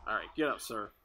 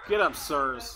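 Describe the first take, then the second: First: Said in the usual way. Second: Louder, commanding get up; loud call. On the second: Real, not acted. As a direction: call them up with force.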